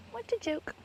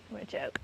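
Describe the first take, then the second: First: Jumps much higher in mock disbelief. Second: Said in the usual way. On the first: Real, not acted. Scoffing at the housemates, in a mocking high voice. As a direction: toss it off high and scornful. Repeated remark, pitched up.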